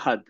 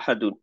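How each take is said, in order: First: The word stops short without the ending. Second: The word ends with the full -un ending. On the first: The reader pauses and drops the case ending. "এখানে আমরা বলি হচ্ছে আহাদ" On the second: The word is read with its grammatical case ending. "এখানে শেষ হয়েছে কিন্তু হচ্ছে আহাদুন"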